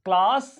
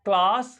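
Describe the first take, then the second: First: The vowel is a long open 'ah' sound. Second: The vowel is a long open 'ah' sound.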